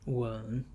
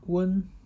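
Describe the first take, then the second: First: The syllable is said with the third tone. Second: The syllable is said with the first tone.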